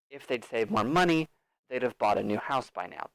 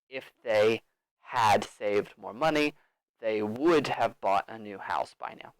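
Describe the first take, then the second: First: 'Had' and 'would' are contracted to 'they'd'. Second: 'Had' and 'would' are said as full words. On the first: "That's the more natural pronunciation" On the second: "That's fine. Everyone will understand"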